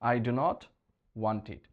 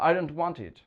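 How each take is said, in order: First: The words do not are said separately. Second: The words do not are contracted together. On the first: This is the formal written style. "লেখার সময় লিখতে হবে" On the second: This is the informal spoken style. "বলতে ভালো লাগে"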